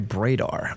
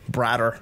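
First: The first syllable does not sound like 'Brad'. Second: The first syllable sounds like 'Brad'. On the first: The speaker calls it wrong. "I feel like I'm saying that wrong" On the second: The speaker calls it right. "it's like Brad"

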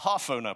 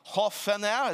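First: The word is said with an English-style pronunciation. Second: The word is said with a Norwegian-style pronunciation. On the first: The speaker calls it wrong. "what my English brain does is go" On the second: The speaker calls it right. "Is that close enough?"

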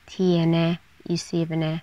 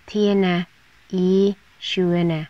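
First: Seventh is pronounced with the form syvende. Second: Seventh is pronounced with the form sjuende. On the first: "พูดอีกแบบหนึ่งได้ว่า" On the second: "คำว่าซิฟเนเราพูดอีกแบบหนึ่งได้ว่าชัวนะ"

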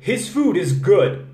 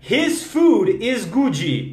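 First: The word stops cleanly on the final d. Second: An extra vowel sound follows the final d. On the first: The speaker calls it right. "Termina ali" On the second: The speaker calls it wrong. "ela meteu um A"

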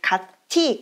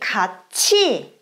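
First: The middle consonant is a plain t sound. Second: The middle consonant is a ch sound. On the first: The speaker calls it wrong. "Aber das ist nicht 같이" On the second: The speaker calls it right. "dann wird to als zu ausgesprochen"

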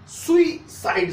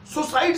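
First: The word begins with a two-vowel 'soo-ee' sound. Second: The word begins with a single 'soo' sound. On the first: The speaker calls it right. "सुइसाइड सही है" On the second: The speaker calls it wrong. "सुसाइड सही नहीं है"

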